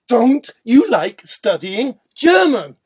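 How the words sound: It sounds pushy and pressuring. The speaker is pushing the listener to comply. "Now pressuring"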